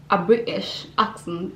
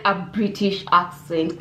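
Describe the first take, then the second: First: Put-on botched British accent, breaking into a laugh; attempted British accent. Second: Said in the usual way. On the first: Asking viewers American or British, in a failed British accent. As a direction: have a weak go at British. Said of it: "I can't even make a British accent". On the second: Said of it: "I can't even make".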